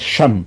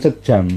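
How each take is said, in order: First: The name is said with one syllable. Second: The name is said with two syllables. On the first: The speaker calls it right. "macanya Syam" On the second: The speaker calls it wrong. "bukan sejam"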